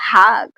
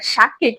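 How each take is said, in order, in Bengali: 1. শব্দটি 'h' ধ্বনি দিয়ে শুরু হয়। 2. শব্দটি 'sh' ধ্বনি দিয়ে শুরু হয়।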